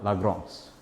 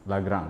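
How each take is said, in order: First: The last syllable has a nasal 'ong' vowel. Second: The last syllable has a plain 'an' sound. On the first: The speaker calls it right. "A N itu dibaca ong" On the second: The speaker calls it wrong. "bukan Lagrange"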